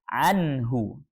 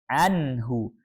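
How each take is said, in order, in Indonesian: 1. Bunyi n jelas dan dilepas cepat. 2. Bunyi n jelas dan dilepas cepat.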